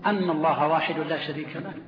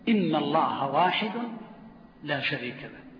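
First: The first word starts with a glottal stop and 'a'. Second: The first word starts with a glottal stop and 'i'. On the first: The clause becomes a single noun-like phrase. The speaker calls it wrong. "لأن فتح الهمزة" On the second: The clause is the full sentence being said. The speaker calls it right. "هنا يجب كسر همزة إن"

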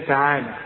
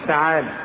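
Both takes have the same delivery.

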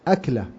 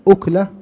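First: The first vowel is a, like akla. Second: The first vowel is u, like ukla. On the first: A single act of eating. "بفتح الهمزة وسكون الكاف" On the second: A morsel of food. "بضم الهمزة وسكون الكاف يعني لقمة"

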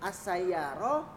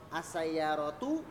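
First: The word ends in a bare h sound. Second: The word ends in a full vowel sound. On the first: This is the form used in everyday conversation. "kalau dalam percakapan semuanya jadi sama, semuanya jadi hak mati" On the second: This is careful reading with every vowel pronounced. "yang harokatnya harus jelas semuanya"

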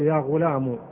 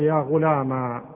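First: The word ends in a short u sound. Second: The word ends in a long aa sound. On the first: "تحذف الياء وتضع بدل منها ضمة" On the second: "وتقلب الفتحة إيش؟ ألف"

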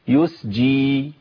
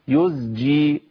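First: The second consonant is a voiceless s sound. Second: The second consonant is a voiced z sound. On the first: The speaker calls it wrong. "كتير من الناس في يزجي دي بيقولوا ايه؟" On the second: The speaker calls it right. "يز يز"

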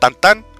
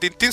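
First: Both syllables have an 'an' vowel sound. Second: Both syllables have an 'in' vowel sound. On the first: The speaker calls it right. "Se llama Tantán" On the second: The speaker calls it wrong. "no se dice Tintín"

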